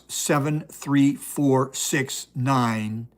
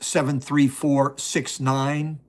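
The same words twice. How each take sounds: First: The numbers are read at a slower pace. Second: The numbers are read at a faster pace.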